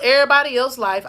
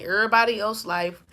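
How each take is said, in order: First: Southern slang. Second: Said in the usual way. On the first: Shown as a demonstration. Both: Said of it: "I said it like that in my southern slang".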